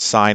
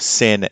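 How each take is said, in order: First: The vowel is long, rhyming with 'fine'. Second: The vowel is short, rhyming with 'tin'. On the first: The speaker calls it right. "they're pronounced sine" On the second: The speaker calls it wrong. "as opposed to sin and cos, which might be their phonetic pronunciation"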